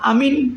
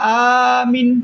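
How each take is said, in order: First: The word begins with a short i sound. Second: The word begins with a long aa sound. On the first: "কসরের সাথে পড়া হবে" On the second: "মদ সহকারে উচ্চারণ হবে"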